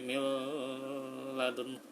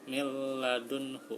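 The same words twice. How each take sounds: First: The sound is held long. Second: The sound is pressed briefly, not held. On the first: The speaker calls it wrong. "nggak sampai ... nggak sampai ditahan ya" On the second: The speaker calls it right. "tidak ditahan ya, cukup ditekan saja ya"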